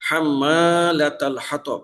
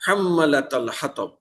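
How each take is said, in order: First: হাম্মালাতাল with the madd held long, slow; হাম্মালাতাল হাতব with মা lengthened; correct long vowel. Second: হাম্মালাতাল with মা clipped short; হাম্মালাতাল হাতব with the madd cut short; wrong short vowel. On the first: Teacher recites the correct madd for students, held vowel. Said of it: "মিমের উপরে আলিফ মাদ আছে". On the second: Teacher shows students the wrongly shortened vowel. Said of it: "দ্রুত উচ্চারণ করি". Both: Shown as a demonstration.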